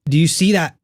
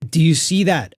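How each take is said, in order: No difference in how they are said.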